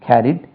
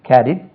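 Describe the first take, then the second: Both takes have the same delivery.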